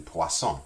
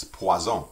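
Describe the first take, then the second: First: "poisson" with an S sound in the middle, pwa-SON; hissed S. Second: French "poison" with a Z in the middle, pwa-ZON; buzzed Z. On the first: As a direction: say "poisson" in French with a voiceless double S. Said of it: "two S's pronounced like an S". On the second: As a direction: say "poison" as pwa-zawn, voicing the S. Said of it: "just put one S in there". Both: Shown as a demonstration.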